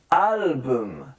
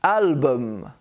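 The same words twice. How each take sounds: First: "Album" stretched as "alll-buhmm"; drawn-out, lower model of "Album"; exaggerated schwa. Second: "Album" as "AL-buhm"; careful "Album" with weak second vowel; schwa demo. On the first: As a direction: linger on the "buhm" of "Album". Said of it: "I'm trying to exaggerate". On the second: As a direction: neutral "uh" before the m of "Album". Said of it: "The U becomes the schwa". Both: Shown as a demonstration.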